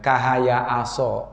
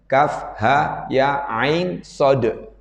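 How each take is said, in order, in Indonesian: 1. Huruf-huruf dibaca sebagai suku kata pendek dan cepat. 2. Setiap nama huruf dibaca panjang dan terpisah. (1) "malah hidupnya kahaya aso. Nah, ini salah ya" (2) "harokat yang panjang dan kemudian harafnya berdiri"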